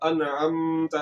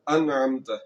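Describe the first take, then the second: First: The nasal m sound is held long. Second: The nasal m sound is released quickly. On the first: The speaker calls it wrong. "ऐसे नहीं पढ़ना। कसदन कसदन मीम को लंबा नहीं करना" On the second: The speaker calls it right. "फौरन आवाज को छोड़ देना है। ... ठीक हो गया"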